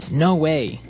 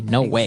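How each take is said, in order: First: It sounds surprised and amazed. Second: It sounds like a firm refusal.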